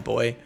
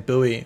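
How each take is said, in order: First: It is said the speaker's own way, as boy. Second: It is said the American way, as boo-ee.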